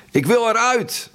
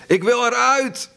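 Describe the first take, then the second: First: High, desperate shriek; trapped man shrieking to get out, pitched far higher; raw scream. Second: Shrill strained shriek, voice changed; trapped man screaming in a broken, changed voice; raw scream again. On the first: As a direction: scream to be let out. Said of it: "Een rauwe, keiharde gil". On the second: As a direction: tear it out of the chest in panic. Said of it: "En opnieuw klonk het". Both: A narrator's reading.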